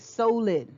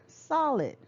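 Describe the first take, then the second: First: The first vowel is a long o sound. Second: The first vowel is a short o sound. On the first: The speaker calls it wrong. "we wouldn't say solid" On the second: The speaker calls it right. "We say solid"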